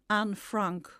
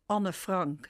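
First: The name is pronounced the English way. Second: The name is pronounced the Dutch way.

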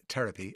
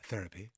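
First: It starts with a hard t, Kildare style. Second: It starts with a soft th sound.

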